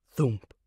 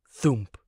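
No difference in how they are said.

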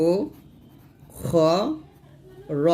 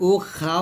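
First: "উ খ র" syllable by syllable, long pauses between; heavy rounded o on "খ" and "র", each apart; correct rounded vowels. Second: "উ খা" with a plain open aa after kh; wrong open vowel. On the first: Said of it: "এরকম উচ্চারণ হবে". ("উ খ র" থেমে থেমে মোটা উচ্চারণ) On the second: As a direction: say "খা" with an open aa instead of a rounded o. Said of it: "উ খা হবে না". ("খা" আ-কার দিয়ে ভুল উচ্চারণ) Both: Shown as a demonstration.

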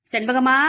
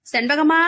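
First: First call from the doorway, raised but held back; a mild shout from outside. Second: Second call, higher and louder; the stronger, louder repeat call; shouting out. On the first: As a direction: call her name from the gate. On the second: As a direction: yell the name again from the gate. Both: A narrator's reading. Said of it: "என வாசலில் நின்று சத்தமிட்டான்".

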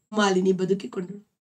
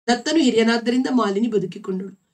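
First: Malini lightly stressed, the line trailing off softly; stress on Malini. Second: ದತ್ತನು stressed as the cause, the line said in full voice; stress on Datta. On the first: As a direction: lean on Malini, let ಬದುಕಿಕೊಂಡಳು fade. (Malini ಮೇಲೆ ಒತ್ತು, ಕೊನೆಯಲ್ಲಿ ಮೆಲ್ಲಗೆ) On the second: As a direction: hit ದತ್ತನು to explain why she was saved. (ದತ್ತನು ಮೇಲೆ ಒತ್ತು, ಕಾರಣ ಹೇಳುವಂತೆ) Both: A narrator's reading.

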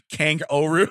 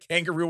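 First: "kangaroo" said as kang-O'Roo; Irish-style pun. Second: Said in the usual way. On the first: Shown as a demonstration. Host pitches an Irish Australian pun, "kangaroo" as Kang-O'Roo. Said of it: "would it be kangaroo". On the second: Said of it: "instead of kangaroo".

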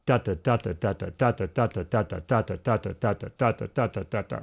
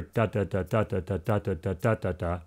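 First: "da" chanted steadily, accent on every other syllable; two-note groupings. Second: "da" chanted evenly, accent on the first of every three; lower, even "da" syllables grouped by threes; triplets in threes. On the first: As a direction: pulse "da, da" in strong-weak pairs. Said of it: "but with two notes, sort of like little groups". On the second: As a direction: tap out "da, da, da" in steady groups of three, softly. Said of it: "you can also play them triplets". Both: Shown as a demonstration.

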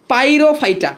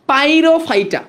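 Both takes have the same delivery.

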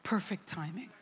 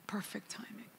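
First: Said in the usual way. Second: Hushed whisper of the same words; awed whispered echo. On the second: Acted. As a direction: breathe it out, no voice. Repeated as a whisper.

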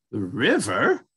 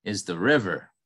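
First: Rising, wondering little mouse; lightly voiced curious mouse; curious question. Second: Said in the usual way. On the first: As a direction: ask it with puzzled curiosity. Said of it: "Mouse asked curiously". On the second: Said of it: "replied the raccoon".

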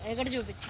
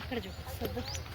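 First: Said in the usual way. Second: Much softer, repeated under the breath; quieter repeat. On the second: Real, not acted. Mother repeats to the cameraperson to film here, much softer. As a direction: say it again, softly, almost to yourself.

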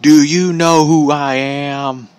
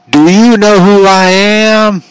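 First: Drawn-out obnoxious whine, slightly high; obnoxious wrestler impression, slow and held back; Bully Ray. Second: Loud, high, drawn-out mocking holler; obnoxious wrestler catchphrase. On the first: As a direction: drag each word out mockingly at normal volume. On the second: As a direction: stretch every word out obnoxiously, full volume. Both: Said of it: "he says that so obnoxiously".

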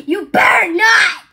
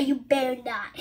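First: Loud shouted repeat of the threat; shouted warning. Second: Low, soft, muttered threat; quiet warning. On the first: Son warning his parent, now shouting it. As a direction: yell the warning out. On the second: Son warning his parent, softly and low. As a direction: say it under the breath as a warning. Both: Retold or imitated. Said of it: "he will say".

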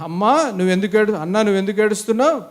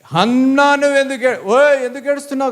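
First: Gentler, coaxing question to a wife; kindly asking husband. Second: High-pitched mock scolding; harsh scolding husband. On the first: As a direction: ask her kindly why she is crying. (భార్యను ప్రేమగా అడుగుతున్నట్టు) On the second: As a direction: call out at her like an exasperated husband. (కసురుకునే భర్తలా) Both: Shown as a demonstration. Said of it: "కాదు, అక్కడ బాగా అన్నాడు".

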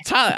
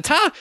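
First: Said in the usual way. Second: Very high, goofy repeat of Tyler; stupid voice. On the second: Retold or imitated. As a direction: call out Tyler in a silly disguised voice. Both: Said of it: "I put on some stupid voice".

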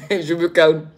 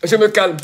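First: Calming down. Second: Still excited. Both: Real, not acted.

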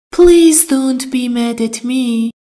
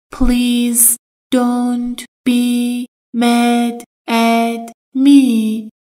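First: Said in the usual way. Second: Very slow, drawn-out teaching model; slow drill. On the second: Shown as a demonstration. Teacher modelling the phrase very slowly for students. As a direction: drag out every word for learners. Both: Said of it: "Mad at someone یعنی".

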